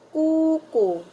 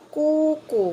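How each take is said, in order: The two takes are said the same way.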